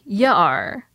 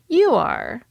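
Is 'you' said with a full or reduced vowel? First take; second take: reduced; full. First: 'You' is reduced to a short 'ya'. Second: 'You' has a full, stressed vowel. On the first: The speaker calls it wrong. "But he wouldn't say" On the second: The speaker calls it right. "This context calls for stress on you"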